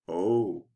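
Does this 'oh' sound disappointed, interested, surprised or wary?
wary. The 'oh' sounds wary. The speaker feels they must be careful. "I better be careful"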